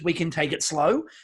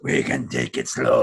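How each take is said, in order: First: It is said in a plain, ordinary voice. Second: It is said in a gravelly, creepy voice.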